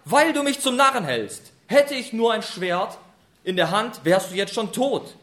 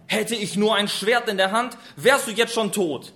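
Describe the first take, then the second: First: Loud, furious threat. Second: Angry threat. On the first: Retold or imitated. Biliam in a rage threatens the donkey with a sword. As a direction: spit out the threat, enraged. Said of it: "wie zornig er ist". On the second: A narrator's reading. Biliam threatens donkey.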